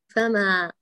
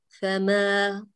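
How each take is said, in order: First: The vowel is opened very widely. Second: The vowel is opened only moderately. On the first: The speaker calls it wrong. "لا نقول فما، لا تفتحي فتح مبالغ فيه" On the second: The speaker calls it right. "افتحي فتحا وسطا"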